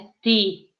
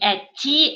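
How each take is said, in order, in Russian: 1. Т твёрдое, не палатализованное перед и. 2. Т мягкое, палатализованное перед и. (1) "читаются твёрдо" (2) "не эти"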